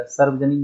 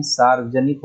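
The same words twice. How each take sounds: First: सार्वजनिक with short first vowel, sarvajanik; wrong short vowel. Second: सार्वजनिक with long first vowel, saarvajanik. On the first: Teacher showing the error, सार्वजनिक with short sar-. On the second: Teacher giving the correct form, सार्वजनिक with long saar-. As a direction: lengthen the opening aa of सार्वजनिक. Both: Shown as a demonstration. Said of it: "सार्वजनिक नहीं".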